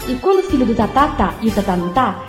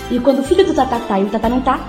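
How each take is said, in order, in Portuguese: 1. É dito em ritmo lento. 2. É dito em ritmo rápido.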